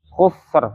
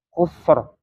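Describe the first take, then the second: First: The word ends on a bare 'r' sound. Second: The same.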